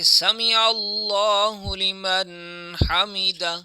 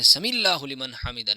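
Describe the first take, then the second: First: A throaty break separates 'sami' from 'allahu'. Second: The words run together with no throaty break. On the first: The speaker calls it right. "बल्कि समीअल्लाहु लिमन हमिदा" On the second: The speaker calls it wrong. "लोग जो करते हैं"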